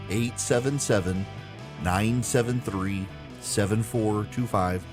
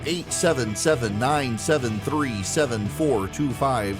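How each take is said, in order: First: The number is read slowly. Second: The number is read quickly.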